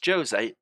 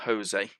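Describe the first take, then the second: First: Jose is said without the Argentine Spanish sound. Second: Jose is said the way Argentine Spanish says it. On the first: The speaker calls it right. "And it's Jose" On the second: The speaker calls it wrong. "Jose would be that I'm from Argentina"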